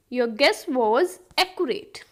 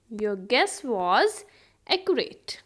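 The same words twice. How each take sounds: First: Said in the usual way. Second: Measured words, pause before the last; slow teaching repeat. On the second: Shown as a demonstration. Teacher repeats the guessing example for learners, slow and split. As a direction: set "accurate" apart after a short pause.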